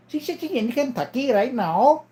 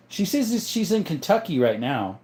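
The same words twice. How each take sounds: First: High put-on Indian accent, rising at the end; mock Indian-accented relay. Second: Said in the usual way. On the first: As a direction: repeat it in a pitched-up Indian accent. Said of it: "an Indian guy".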